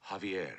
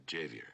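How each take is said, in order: First: "Javier" with the J as an H; correct pronunciation. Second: "Javier" with a hard English J; mispronunciation. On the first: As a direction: say "Javier" as "Hah-vee-air". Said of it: "the J is silent". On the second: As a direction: say "Javier" as "Jay-vee-air". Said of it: "not Javier". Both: Acted.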